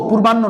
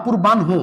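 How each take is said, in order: First: পূর্বাহ্ন said as "purbanno"; পূর্বাহ্ন ending in a plain "-nno"; wrong pronunciation. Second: পূর্বাহ্ন said as "purban-ho"; n first, then an audible h in পূর্বাহ্ন; correct pronunciation. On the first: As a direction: double the n in পূর্বাহ্ন, dropping the h. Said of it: "পূর্বাহ্ন না". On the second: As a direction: end পূর্বাহ্ন on "-n-ho". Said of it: "পূর্বাহ্ন না, পূর্বাহ্ন". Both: Shown as a demonstration.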